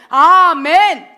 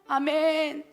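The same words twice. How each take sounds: First: It sounds firm and confident. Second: It sounds pleading, asking for help.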